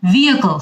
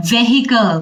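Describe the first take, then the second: First: ভেহিকল with a silent h, vee-a-kel; correct pronunciation. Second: ভেহিকল with a sounded h, veh-hi-kel; wrong pronunciation. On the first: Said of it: "ভেহিকল হবে". (শুদ্ধ উচ্চারণে ভেহিকল) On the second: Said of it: "এটা কিন্তু correct না". (ভুল উচ্চারণে ভেহিকল) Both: Shown as a demonstration.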